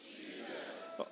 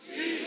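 First: Barely audible, half-hearted reply of Jesus; a timid murmur of "Jesus" from the crowd; weak mumbled answer. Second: "Jesus" called out high and eager; a confident reply of "Jesus"; answered with energy. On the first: Congregation answering the preacher, mumbled and quiet. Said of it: "that's not how we say Jesus here". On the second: Congregation answering the preacher again, high and full of energy. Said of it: "That's better". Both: Real, not acted.

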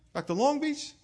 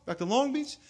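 No difference in how they are said.

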